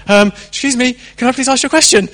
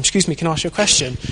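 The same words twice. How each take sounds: First: Timid asking. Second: Said in the usual way. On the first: Retold or imitated. Rubbish evangelist asking timidly.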